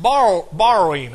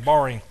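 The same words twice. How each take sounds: First: "Borrow, borrowing" said slowly and louder, as "bar-oh, bar-oh-in"; a careful run at "borrowing" that drifts to "bar-oh-in"; East Texas borrowing. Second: "Borrowing" squeezed to two syllables, "bar-in"; "Borrowing" said quickly as "bar-in"; clipped borrowing. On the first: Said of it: "I have a trouble with that word". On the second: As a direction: drop the middle of "Borrowing": "bar-in". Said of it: "it doesn't come out right". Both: Shown as a demonstration.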